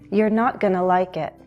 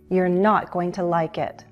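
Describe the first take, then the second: First: Going to is reduced to gonna, spoken faster. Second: Going to is said fully, at slower speed.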